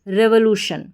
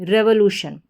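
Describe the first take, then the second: First: The first syllable has a short 'reh' vowel. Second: The same.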